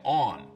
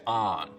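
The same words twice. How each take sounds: First: Midland US form, rhyming with dawn. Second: Northern US form, rhyming with don.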